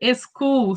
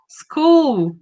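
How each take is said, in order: First: A vowel sound is added before the s. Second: The word begins directly with the s sound. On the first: The speaker calls it wrong. "they will say school" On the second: The speaker calls it right. "like school"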